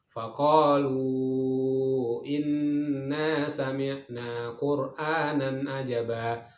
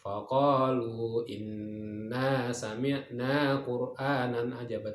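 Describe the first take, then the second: First: The last vowel of faqalu is held long. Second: The last vowel of faqalu is kept short. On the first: "Tadi kita baca adalah lima harokat" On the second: "kalau ingin bacanya pendek boleh"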